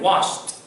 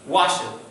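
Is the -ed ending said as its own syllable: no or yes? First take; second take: no; yes. First: The ending is a single t sound. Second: The ending is said as an extra syllable. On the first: The speaker calls it right. "You have to make the sound like the T" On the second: The speaker calls it wrong. "That is a terrible pronunciation"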